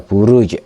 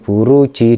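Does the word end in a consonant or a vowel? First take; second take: consonant; vowel. First: The word ends on a bounced stopped consonant. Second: The word ends with a final vowel. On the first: The reader stops at this word. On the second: The reading continues without stopping.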